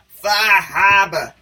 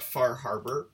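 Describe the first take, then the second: First: It is said in a stereotypical Boston accent. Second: It is said in the speaker's normal accent.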